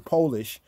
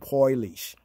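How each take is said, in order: First: It uses the usual English pronunciation of the word. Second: It uses the Yiddish speakers' pronunciation of the word. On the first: This is how English speakers say it. "we say Polish" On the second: This is how Yiddish speakers say it. "but their pronunciation Polish"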